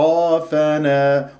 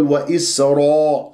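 First: وإسرافنا with a full ر, unrounded aa; open heavy ra. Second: وإسرا with raa pushed towards ro; rounded ra, wrong. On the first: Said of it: "والراء مفتوحة". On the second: Teacher showing the common mistake, over-rounded ra. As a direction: round the lips on the ر. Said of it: "خطأ". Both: Shown as a demonstration.

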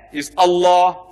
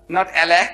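First: Allah with a long open o, /ɑlːɔ/; Allah said properly, the Arabic way; right Allah. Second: Allah with flat a sounds, /ælæ/; Allah said the English way; wrong Allah. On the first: Preacher teaching the right way to say Allah. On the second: Preacher mocking the English way of saying Allah. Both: Shown as a demonstration. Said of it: "pronounce the way I asked you to pronounce".

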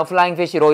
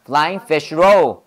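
First: "Flying fish roll" run together evenly, no word stressed; no accent, Korean style. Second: "Flying fish roll" slow, a separate stress on each word; accented on every word. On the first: Teacher showing how Koreans say it, unaccented. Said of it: "한국 사람들은 여기다 액센트 안 넣어요". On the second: Teacher correcting the unaccented way, three clear stresses. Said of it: "아니야". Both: Shown as a demonstration.

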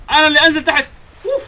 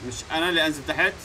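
First: Much higher and louder, yelled; angry yell. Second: Said in the usual way. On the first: Real, not acted. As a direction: bark it out in fury.

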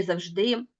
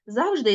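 First: Завжди said as zav-ZHDY; завжди with the ending strong; stress on last syllable. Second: Завжди said as ZAV-zhdy; завжди with the opening syllable strong; stress on first syllable. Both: Shown as a demonstration. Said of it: "слова з подвійним наголошенням".

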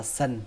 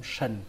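First: "sần" with a plain hissing s; wrong pronunciation. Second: "sần" with a hushing sh; correct sh sound. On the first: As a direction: say "sần" starting on a thin s, not sh. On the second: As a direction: say "sần" like "shun", low falling tone. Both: Shown as a demonstration. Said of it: "Nó không phải là sần".

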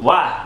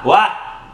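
First: Said in the usual way. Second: Why pushed higher and a bit louder; Why said as a pleading, fed-up outcry; a sharper second why; exasperated. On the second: Acted. Exasperated questions to her partner.

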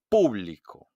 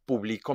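First: "público" punched on the first syllable PÚ; stress on PÚ. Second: "publico" with weight on middle BLI; stress on BLI. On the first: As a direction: hit PÚ hard in "público". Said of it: "hago un golpe de voz". ("público" con golpe de voz en PÚ) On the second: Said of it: "escucha a tu profesor leer estas oraciones". ("publico" acentuado en BLI) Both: Shown as a demonstration.

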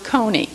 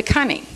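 First: Said in the usual way. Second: "cunny" with a short U, rhyming with bunny; coney as cunny. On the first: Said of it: "change the pronunciation from how you think". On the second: Shown as a demonstration. Teacher giving the actual pronunciation of coney, short-U cunny. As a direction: say "cunny", first vowel as in "bun". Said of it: "the pronunciation of a coney is".

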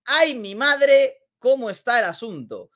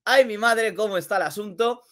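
First: Mock alarm. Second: Said in the usual way. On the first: Mock alarm at tight standings.

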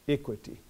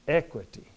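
First: Equity said as "ICK-witty"; equity pronounced "IK-wi-tee", quietly; IH sound in equity. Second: Equity said as "ECK-witty"; Equity pronounced "EK-wi-tee", quietly; E sound in equity. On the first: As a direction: start equity with a short I, as in "it". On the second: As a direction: start Equity with a short E, as in "echo". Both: Shown as a demonstration. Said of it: "change that I to a".

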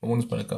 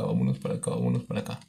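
First: Said in the usual way. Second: Much lower, playful deep voice. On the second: Pretend. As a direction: drop into a deep goofy voice. Repeats phrase in low voice. (voz grave)

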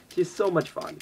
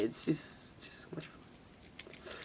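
First: Said in the usual way. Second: Breathy whispered gush. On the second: Real, not acted. Showing viewers the toy, in a delighted whisper. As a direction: hush it like a secret delight. Hushed gushing over the toy.

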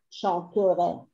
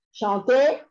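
First: Chanterai, the e swallowed, pitch falling; future chanterai. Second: Chanter, ending in a plain e sound, said a little louder; infinitive chanter. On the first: Chanted, teacher shows the future form to the class, e dropped. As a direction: glide through chanterai with no e sound. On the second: Chanted, teacher contrasts the infinitive with the future, clear ending. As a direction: say Chanter with the final r silent. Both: Shown as a demonstration. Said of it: "La E final no suena".

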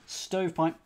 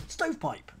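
First: Said in the usual way. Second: Triumphant. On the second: Real, not acted.

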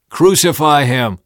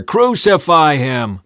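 First: Loud, high crowd cry; shouting back. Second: Loud, slow, drawn-out shout; mob roar. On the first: Crowd answering Pilate, shouted back. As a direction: shout the demand. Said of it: "They shouted back". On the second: Mob roaring back at Pilate, drawn-out roar. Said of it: "the mob roared even louder". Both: A narrator's reading.

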